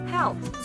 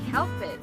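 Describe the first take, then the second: First: The ending is a short t sound. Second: The ending is an extra unstressed syllable. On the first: The speaker calls it right. "but say helped" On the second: The speaker calls it wrong. "Do not say help it"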